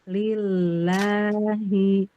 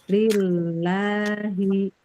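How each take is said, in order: Both takes have the same delivery.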